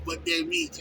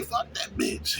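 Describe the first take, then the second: First: Said in the usual way. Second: Breathy whispered dismissal. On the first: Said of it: "You know what I'm saying". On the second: Shown as a demonstration. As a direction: whisper it like a private shrug-off. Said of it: "you gotta say".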